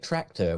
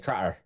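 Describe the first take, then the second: First: The 'c' sound before the 't' is pronounced. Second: The 'c' sound is dropped, giving a double 't'. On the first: "when we say tractor" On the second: "we actually say tratter"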